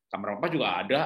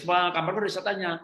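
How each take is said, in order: First: Ayah menjawab lebih rendah dan santai; jawaban ayah tenang. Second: Lebih tinggi seperti anak yang mengadu, agak lebih keras; suara anak kecil. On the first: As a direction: suara ayah yang tenang dan menenangkan. Ayah membalas anak dengan tenang. (ayah menjawab anak dengan santai) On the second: Ayah menirukan anak yang menangis. (anak kecil mengadu ketakutan) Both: Retold or imitated.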